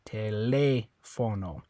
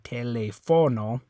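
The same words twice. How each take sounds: First: The stress is on the second syllable. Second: The stress is on the third syllable. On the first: The speaker calls it right. "the one where you're going to stress it is this one because it has the accent mark" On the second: The speaker calls it wrong. "If you're stressing that O"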